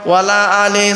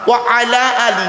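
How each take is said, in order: First: The words run together as 'wala ali'. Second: The words are said fully as 'wa ala ali'. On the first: It carries a negative meaning. The speaker calls it wrong. "ভুল হয়ে গেল।" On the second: It means 'and upon the family'. The speaker calls it right. "ওয়ালা আলে নয়।"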